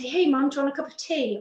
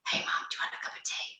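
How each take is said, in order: First: It is said in a normal voice. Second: It is said in a whisper.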